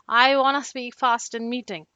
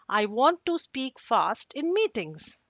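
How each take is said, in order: First: The words are slurred and hard to make out. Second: The words are distinct and easy to make out. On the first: The speaker calls it wrong. "it doesn't sound clear" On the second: The speaker calls it right. "A clear sentence, even though if you have accent, will sound something like this"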